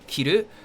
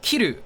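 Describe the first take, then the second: First: The emphasis falls on the second syllable. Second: The emphasis falls on the first syllable. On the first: It means to wear. "if you put emphasis on the ru" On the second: It means to cut. "if you put the emphasis on the key, it's um the cut"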